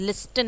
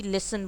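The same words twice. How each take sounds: First: लिस्टन with the T said; wrong pronunciation. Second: लिसन with no T; silent T demo. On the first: (लिस्टन, T के साथ गलत) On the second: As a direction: say लिसन, drop the T. (लिसन बिना T के) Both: Shown as a demonstration. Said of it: "लिस्टन नहीं बोल रहे हैं आप".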